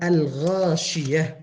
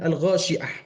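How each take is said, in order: First: The name's sounds are pronounced carefully and precisely. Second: The name's sounds are pronounced loosely, not carefully. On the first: The speaker calls it right. "Yang benar adalah Al-Ghashiyah" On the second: The speaker calls it wrong. "kadang bisa dengar ada yang mengatakan Al-Ghashiyah"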